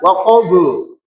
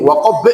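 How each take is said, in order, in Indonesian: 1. Huruf b terakhir dilepas dengan bunyi vokal seperti u. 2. Huruf b terakhir dihentikan tanpa dilepas. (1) "tidak dibaca waqabu, waqabu, salah" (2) "enggak boleh waqab"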